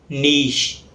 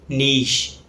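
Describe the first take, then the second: No difference in how they are said.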